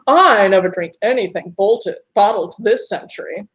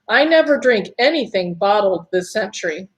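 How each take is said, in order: First: It is read in a put-on British accent. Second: It is read in the reader's natural accent.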